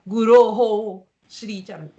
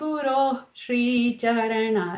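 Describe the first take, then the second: First: A full extra syllable 'ho' follows Guru. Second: A faint breath follows Guru, with no vowel. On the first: The speaker calls it wrong. "You don't really say" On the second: The speaker calls it right. "it's just a little puff of air"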